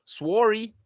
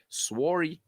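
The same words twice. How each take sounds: First: Put-on "Sworry" said the Canadian way, a touch of Canadian accent; mock Canadian "Sworry"; Canadian sorry. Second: Soft Canadian-style "sworry"; lightly mock Canadian "sworry"; Canadian sorry. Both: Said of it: "As my Canadian brethren say".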